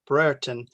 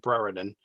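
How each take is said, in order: First: The name has its local English pronunciation. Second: The name has an American-style pronunciation. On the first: The speaker calls it right. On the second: The speaker calls it wrong.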